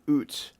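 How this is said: The vowel is said like 'oo', Canadian style. The speaker calls it right. "you spelled it Canadian, oot. That's the right way to say it"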